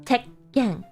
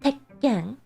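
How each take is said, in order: First: A short stop splits the word before 'ken'. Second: The same.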